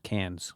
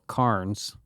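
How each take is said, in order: First: The R sound is dropped from the word. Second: The R sound is pronounced in the word. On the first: This is how the locals say it. "they drop the R and it becomes Cairns" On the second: This is how the speaker's own community says it. "we would call Cairns"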